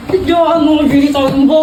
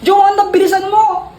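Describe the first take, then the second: First: Half-crying, half-laughing yell of "Joanna, bilisan mo!"; strained, pained shout of "bilisan mo"; desperate plea. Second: Said in the usual way. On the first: Acted. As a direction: beg through a laugh-sob for "Joanna" to hurry. Desperate, can't hold it anymore.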